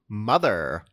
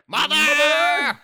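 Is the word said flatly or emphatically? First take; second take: flatly; emphatically. First: The word is said flatly, without emphasis. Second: The word is said loudly, with strong emphasis.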